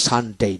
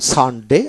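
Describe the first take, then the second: First: সানডে in American style, final vowel glided to "ey"; slow American model of সানডে with a long final "ey"; American pronunciation. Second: সানডে in British style, with a short ending; slow British model of সানডে, ending on plain e; British pronunciation. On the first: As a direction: say সানডে as "san-dey", drawing out the end. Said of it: "American উচ্চারণ". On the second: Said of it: "এটা হলো British উচ্চারণ". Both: Shown as a demonstration.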